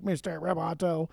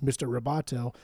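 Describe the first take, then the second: First: Slow, mechanical robot imitation. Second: Said in the usual way. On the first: Imitating a singer's modulated vocal for cohost, robot voice. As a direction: stretch it out like a robot. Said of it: "modulates his voice to sound like a robot". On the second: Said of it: "when he says the word".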